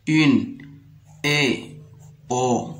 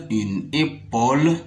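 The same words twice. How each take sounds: First: "épaule" slowly broken into é, pau, le; syllable by syllable. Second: Said in the usual way. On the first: Shown as a demonstration. Teacher sounding out a word for pupils, "épaule" slowly split. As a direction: pause between the pieces of "épaule". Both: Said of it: "Je lis les syllabes".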